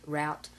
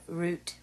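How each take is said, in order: First: Said in the usual way. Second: "route" said like "root"; careful "route", rhyming with boot; fancy pronunciation. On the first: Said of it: "talk like I normally do". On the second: Real, not acted. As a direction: say "route" with an oo vowel. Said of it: "I'm not fancy here".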